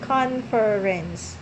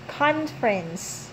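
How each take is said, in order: First: All three syllables are said out in full. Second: It is said fast with the middle vowel dropped. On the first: "if you're going to count that, the syllable" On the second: "in the right way, it's conference, conference. So you just make it fast"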